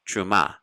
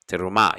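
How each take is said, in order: First: The first vowel is dropped entirely. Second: A quick short e follows the first consonant. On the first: "they hardly pronounce it at all" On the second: "pronounce the first E under the letter Tav"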